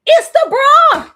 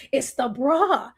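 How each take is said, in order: First: Louder, higher and slow; emphatic reveal. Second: Said in the usual way. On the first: Real, not acted. Telling viewers the bra is the culprit, loud and slow. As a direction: land the punchline hard. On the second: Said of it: "repeated punchline".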